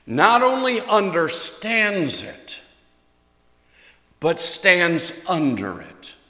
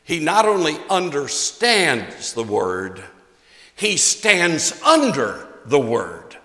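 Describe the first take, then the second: First: Slow, emphatic repeat; "only" pressed hard, "stands under it" slowed right down; stress on only. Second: Pastor stressing "stands under" slowly; "stands under the word" drawn out slowly, each word weighted. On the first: Preacher repeating his point to the church: slow and emphatic. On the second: Preacher to congregation: slow, weighted wordplay. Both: Shown as a demonstration. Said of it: "can I repeat that".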